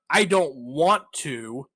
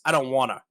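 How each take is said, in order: First: Each word is pronounced separately and fully. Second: The words are blended together into one flow. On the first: "it's not" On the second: "they just blend the words together"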